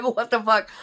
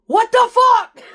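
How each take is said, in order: First: Raised, loud question through laughter; hysterical laughing. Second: High, full-volume startled yell; alarmed shout. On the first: Bunker mates reacting to the shaken soldier, laughing. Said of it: "like, hysterically". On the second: Soldiers under the hippo as rounds come in, shouting. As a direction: shout it out in disbelief, far higher and louder. Acting out reaction under incoming fire. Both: Retold or imitated.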